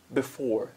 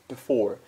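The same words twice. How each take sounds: Both takes have the same delivery.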